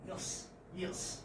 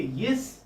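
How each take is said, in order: First: "yes, yes" said quickly and softly. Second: "yes" with stress, rising at the end. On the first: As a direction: toss off "yes" at speed, much softer. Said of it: "with a speed". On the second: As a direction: put firm stress on "yes". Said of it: "with the stress". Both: Shown as a demonstration.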